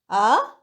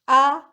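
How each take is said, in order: First: The pitch dips low and then rises. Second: The pitch stays high and level. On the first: It expresses doubt. "Third tone" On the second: It expresses surprise and admiration. "The first tone"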